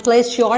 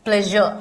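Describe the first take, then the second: First: "प्लेज श्योर" split, ending like the word "sure"; mispronounced with sh. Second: "प्लेजर" ending in a soft "zhuh"; soft zh sound. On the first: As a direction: say "प्लेज श्योर" wrongly, with a full "shor" ending. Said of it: "नहीं बोलते हैं". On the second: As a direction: say the middle of "प्लेजर" as zh, with no hard r. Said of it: "इसका pronunciation ये होता है". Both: Shown as a demonstration.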